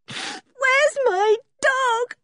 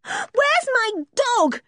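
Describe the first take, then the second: First: Very high, slow tearful wail; distraught, crying girl; sobbing. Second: Very high, drawn-out cry; anguished girl's cry. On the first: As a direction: sob it out, stretching the words. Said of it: "she sobbed". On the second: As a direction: demand it desperately at a high pitch. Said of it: "she cried". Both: A narrator's reading.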